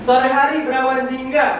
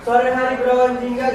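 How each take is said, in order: First: It is read slowly with lively, varied intonation. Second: It is read quickly with flat, level intonation. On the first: The speaker calls it right. "cara cara membaca pantun juga ada intonasinya" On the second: The speaker calls it wrong. "intonasinya nggak datar, nggak bacanya ... nggak begitu"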